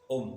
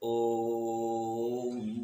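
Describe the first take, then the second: First: The vowel is said quickly and briefly. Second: The vowel is held for a long time. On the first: The speaker calls it wrong. "ऐसे नहीं बोल सकते ... इतनी जल्दी नहीं" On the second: The speaker calls it right. "जितनी लंबा चाहे उतनी देर तक बोलेंगे"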